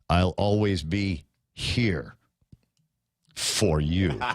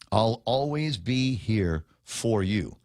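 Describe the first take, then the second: First: It is said in a creepy, menacing way. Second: It is said warmly and sincerely. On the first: An obsessive, stalker-like threat. The speaker calls it wrong. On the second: A caring, romantic promise. The speaker calls it right.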